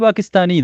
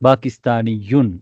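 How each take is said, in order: First: The word ends plainly on a short -i. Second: The word ends with a doubled y and -un. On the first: The speaker stops after the word. "நிறுத்தும் பொழுது பாகிஸ்தானி தான்" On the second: The word is joined to what follows. "பாகிஸ்தானியுன் என்று ஷத்தா இருக்கு"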